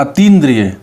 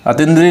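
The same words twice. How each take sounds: First: अतीन्द्रिय with a long "tee", falling; correct pronunciation. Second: अतीन्द्रिय said "a-ten-driy"; wrong pronunciation. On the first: Teacher corrects the word for students, long ee. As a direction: lengthen the ee in अतीन्द्रिय. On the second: Teacher shows what not to say, e-vowel mispronunciation. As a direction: put an e in the second syllable of अतीन्द्रिय. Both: Shown as a demonstration. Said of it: "नहीं बोलते".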